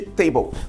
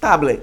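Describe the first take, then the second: First: The word has its usual English pronunciation. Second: The word is sounded out letter by letter. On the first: The speaker learned the word by hearing it. The speaker calls it right. "todo mundo sabe que se pronuncia table" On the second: The speaker learned the word from reading it. The speaker calls it wrong. "se você não souber a pronunciação, você vai pronunciar possivelmente"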